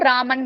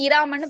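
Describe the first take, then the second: First: The word starts directly with the 'r' sound. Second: The word starts with an added 'i' vowel. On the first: The speaker calls it right. "ராமன் மட்டும் தான் சொல்லுவோம்" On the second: The speaker calls it wrong. "இராமன் pronounce பண்ண மாட்டோம்"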